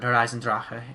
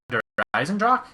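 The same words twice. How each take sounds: First: The name is said with a careful German pronunciation. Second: The name is said with a casual English pronunciation.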